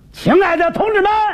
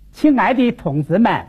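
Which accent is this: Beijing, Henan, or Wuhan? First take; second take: Henan; Wuhan. First: It is spoken loudly and forcefully in a Henan accent. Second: It is spoken in a Wuhan accent with falling tones. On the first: "河南一说这么说" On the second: "换我武汉方言"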